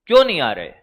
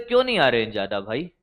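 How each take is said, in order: First: Said in the usual way. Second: "क्यों" rising in a fast, much softer, lower voice; quick hushed question. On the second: Retold or imitated. Teacher retelling his question to a student, quick and hushed. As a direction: toss off "क्यों नहीं आ रहे हैं ज्यादा भाई" quickly and quietly under the breath. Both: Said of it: "मैंने कहा".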